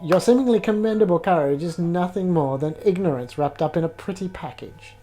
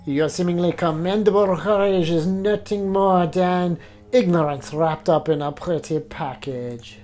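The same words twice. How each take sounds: First: It is spoken in the speaker's plain accent. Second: It is spoken in a put-on French accent.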